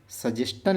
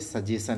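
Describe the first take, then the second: First: The ending is said like 'stun', spelling-style. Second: The ending is said like 'shun', naturally. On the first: This is how the word is spelled. "सजेस्टन लिखना होता है" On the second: This is how the word is read aloud. "पढ़ते सजेशन है"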